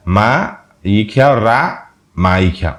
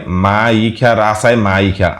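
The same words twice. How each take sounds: First: Very slow, drawn-out মা ইখা রা মা ইখা; spelling read aloud. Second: Slow letter-by-letter reading of মা ইখা রাসায় মা ইখা; spelling read aloud. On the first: Host spelling out the alternative letters for viewers, very slowly. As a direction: stretch each syllable of মা ইখা রা মা ইখা apart. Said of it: "ময়কার মা দিলে". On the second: Host reading a commenter's spelling to viewers, slow and careful. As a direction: sound out মা ইখা রাসায় মা ইখা syllable by syllable, slowly. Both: Shown as a demonstration.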